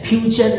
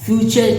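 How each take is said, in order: First: The opening f sound is harsh and abrupt. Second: The opening f sound is soft and gentle. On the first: The speaker calls it wrong. "फ्यूचर नहीं कहते हैं" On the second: The speaker calls it right. "हम फ्यूचर कहते हैं"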